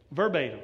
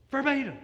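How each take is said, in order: First: Said in the usual way. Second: Verbatim said higher, hammered home; emphatic repeat. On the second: Shown as a demonstration. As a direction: punch Verbatim higher the second time.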